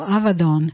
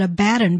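First: The second consonant is a V sound. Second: The second consonant is a B sound. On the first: This is the original pronunciation. The speaker calls it right. "it's actually pronounced a V, that V, and it is Don ending" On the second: This is the common anglicized pronunciation. The speaker calls it wrong. "We often pronounce that Abaddon"

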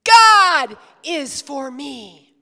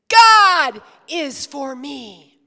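First: The word God is stressed. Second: The same.

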